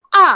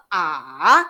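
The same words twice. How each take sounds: First: A cut dead on a loud fall; short, angry-sounding falling A; fourth tone. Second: Long droning A, dipping then rising; A scooped down and up; third tone. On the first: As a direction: drop A hard and stop at once. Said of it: "nombor empat matikan terus". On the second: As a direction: drone A low, then lift it. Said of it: "Nombor tiga kita dengung". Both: Shown as a demonstration.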